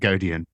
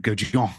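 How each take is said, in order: First: The surname is pronounced the English way. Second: The surname is pronounced the French way. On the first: This is the everyday form of the name. "I've very much anglicized it to Godian" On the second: This sounds posh and true to the name's origins. "if I really wanted to go properly posh with it"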